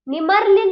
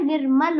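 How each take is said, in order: First: निमर्ल as "ni-marl", r after the m, higher and louder; wrong pronunciation. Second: निर्मल as "nir-mal", r before the m; correct pronunciation. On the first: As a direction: misread it as निमर्ल, r before the l. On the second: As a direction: give the right reading निर्मल, r closing "nir". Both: Shown as a demonstration. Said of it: "नहीं होता है".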